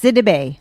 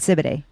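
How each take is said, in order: First: The second syllable starts with a d sound. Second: The second syllable starts with a b sound. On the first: The speaker calls it right. "It's Sidibe" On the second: The speaker calls it wrong. "I was saying Sibiday"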